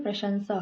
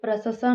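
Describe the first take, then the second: First: प्रशंसा said as "prashansa" with sh and n; प्रशंसा clearly as pra-shan-sa; correct pronunciation. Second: प्रशंसा said as "prasasa", plain s with no n sound; प्रशंसा mispronounced as prasasa, no nasal; wrong pronunciation. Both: Shown as a demonstration. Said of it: "प्रशंसा नहीं".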